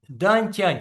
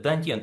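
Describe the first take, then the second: First: The second syllable is said as 'tyan'. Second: The second syllable is said as 'tyen'. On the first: The speaker calls it wrong. "не дантянь, как она говорит" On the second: The speaker calls it right. "а дантьен"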